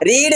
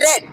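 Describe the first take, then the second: First: The vowel is long, like 'reed'. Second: The vowel is short, like 'red'. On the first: It is the present form. "रीड की तीनों form एक जैसी होती है" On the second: It is the past form. "इसको रेड पढ़ा जाता है"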